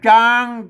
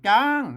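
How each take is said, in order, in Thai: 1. พยางค์นี้มีเสียงกลาง 2. พยางค์นี้มีเสียงสูง (1) "เสียงสมัญ" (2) "เสียงตี"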